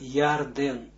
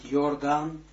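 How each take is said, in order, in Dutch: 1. De naam wordt met Hebreeuwse uitspraak uitgesproken. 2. De naam wordt met Nederlandse uitspraak uitgesproken. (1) "maar Jordaan, zoals het in de heilige taal is" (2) "niet Jordaan, Jordaan zoals men dat zegt"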